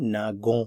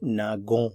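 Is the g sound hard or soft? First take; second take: hard; hard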